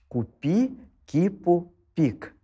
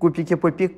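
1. Фраза произносится медленно и отчётливо. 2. Фраза произносится быстро, на большой скорости. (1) "медленно сказать" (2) "потом набирать тем темп"

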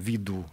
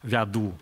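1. Безударный гласный звучит как 'i'. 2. Безударный гласный звучит как 'ya'. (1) "мы говорим виду" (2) "Мы не говорим вяду"

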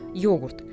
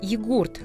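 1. Ударение стоит на первом слоге. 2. Ударение стоит на втором слоге. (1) "на русский манер с ударением на первый слог" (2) "Первое время произносилось как"

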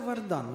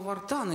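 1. Средний согласный — звонкий d. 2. Средний согласный — глухой t. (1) "Правильно, оказывается, «Вардан»" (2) "я-то думал «Вартан и Джульетта»"

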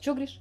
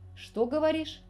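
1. Фраза сжата в два коротких слога. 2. Каждый слог фразы произносится полностью. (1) "при быстрой речи получалось" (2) "спрашивали друг друга"

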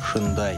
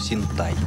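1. Слово произносится как 'shendai'. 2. Слово произносится как 'sintai'. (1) "Никакого шендая в Японии нет. Нет в японском языке звуков ше и дэ" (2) "Если уж произносить, то синтай"

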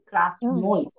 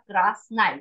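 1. Безударный гласный — полное О. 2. Безударный гласный звучит как А. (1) "We don't pronounce красной" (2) "We will pronounce like A"

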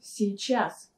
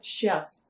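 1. Слово произносится полностью, с обоими слогами. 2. Слово сокращается до одного слога. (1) "эту полную форму" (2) "сокращать это слово"

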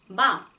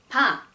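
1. 이 음절은 숨을 적게 내쉬며 발음해요. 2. 이 음절은 숨을 더 많이 내쉬며 발음해요. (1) "근데 러시아어 매 발음은" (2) "비읍을 발음하실 때는"

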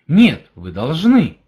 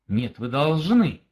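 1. Сказано положительным, утверждающим тоном. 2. Сказано мягким, интимным тоном. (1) "Это положительность" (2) "в каком-то смысле даже интим"

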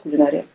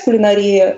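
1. Ударение падает на слог 'на'. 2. Ударение падает на слог 'ри'. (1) "хотя раньше нормой литературной считалась «кулинария»" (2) "Вот сейчас «кулинария» — это новая норма"

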